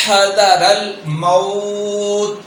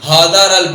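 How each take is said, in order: First: Slow حذر الموت with heavy ha; throaty ha. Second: حذر with a plain Urdu ha; حذر with the round ha mistake. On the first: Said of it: "جبکہ پڑھنا ہے". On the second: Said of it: "گول ہا پڑھ دیتے ہیں". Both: Shown as a demonstration.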